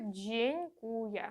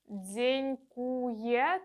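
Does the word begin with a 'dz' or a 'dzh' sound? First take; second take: dzh; dz. First: The word begins with a soft 'dzh' sound. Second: The word begins with a hard 'dz' sound. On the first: The speaker calls it right. "Правильно буде" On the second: The speaker calls it wrong. "Дзенькує – це неправильно, не повторюйте"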